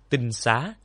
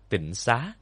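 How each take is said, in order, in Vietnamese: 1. Âm tiết đầu có thanh ngang. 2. Âm tiết đầu có thanh nặng.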